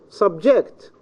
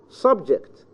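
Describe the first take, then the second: First: The stress is on the second syllable. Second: The stress is on the first syllable. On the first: "The second syllable" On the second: "it can be in the first syllable"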